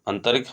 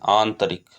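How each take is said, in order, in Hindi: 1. शब्द की शुरुआत छोटे 'a' स्वर से होती है। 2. शब्द की शुरुआत लंबे 'aa' स्वर से होती है। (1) "अंतरिक हमारा अशुद्ध शब्द है" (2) "बड़ा आ रहेगा"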